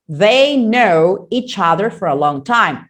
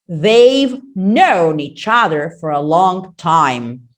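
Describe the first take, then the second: First: The 've and final n sounds are dropped. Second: The 've and final n sounds are heard. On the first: The speaker calls it wrong. "Some people do not pronounce the words correctly. ... And that's wrong" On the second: The speaker calls it right. "They must say they've, they've known. ... And that's correct"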